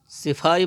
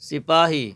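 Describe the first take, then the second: First: The middle consonant is an f sound. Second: The middle consonant is a p sound. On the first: The speaker calls it wrong. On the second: The speaker calls it right.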